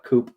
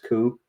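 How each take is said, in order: First: The word ends with an audible P sound. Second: The word ends on the vowel, P silent. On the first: The speaker calls it wrong. "So like coop" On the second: The speaker calls it right. "but it's coup"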